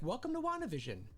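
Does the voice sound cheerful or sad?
cheerful. The voice sounds bright and cheerful.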